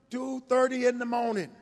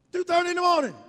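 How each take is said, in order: First: Said in the usual way. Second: "two thirty in the morning" said higher and louder, leaning on "morning"; emphatic repeat. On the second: Retold or imitated. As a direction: hammer the late hour "two thirty in the morning", rising up.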